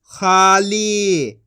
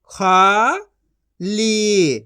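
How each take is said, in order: First: खाली as one joined word; long खाली, falling at the end; blended reading. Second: खाली split into खा, pause, ली; syllable by syllable. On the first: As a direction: join खा and ली. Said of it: "इनको आपस मिला के पढ़". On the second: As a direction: sound out खाली in two syllables. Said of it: "एक एक अक्षर का उच्चारण करके". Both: Shown as a demonstration.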